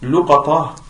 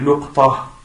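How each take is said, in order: First: Short u after l, long a after q. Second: Short u after l, no vowel after q. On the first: "le troisième qui est luqata, c'est le alif après le qaf" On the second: "le quatrième qui est luqta ... Dhamma sur le lam"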